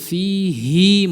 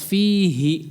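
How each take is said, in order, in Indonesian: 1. Vokal akhirnya dibaca panjang. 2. Vokal akhirnya dibaca pendek. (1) "ada tambahan ya mad pada huruf ha-nya fihi" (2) "Hi-nya pendek saja, tidak ada tambahan ya"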